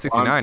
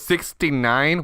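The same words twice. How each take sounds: First: The number is said at a normal, natural pace. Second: The number is said slowly with exaggerated emphasis. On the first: The listener understands this word. The speaker calls it right. "I know what sixty-nine is" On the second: The listener does not recognize the word. The speaker calls it wrong. "Overemphasizing your words actually makes it harder"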